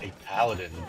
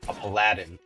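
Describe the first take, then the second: First: It is said the ordinary, common way. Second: It is said sounding more like palladium. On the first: "as normal people call it" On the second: "Sounds, uh, you know, more like palladium"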